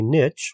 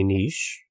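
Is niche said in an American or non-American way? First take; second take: American; non-American. First: Niche is said the American way. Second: Niche is said the non-American way.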